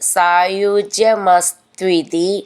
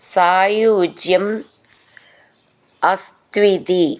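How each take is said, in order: First: The two words are merged into one word. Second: The two words are said separately, unjoined.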